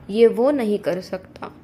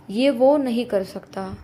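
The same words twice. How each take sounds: The two takes are said the same way.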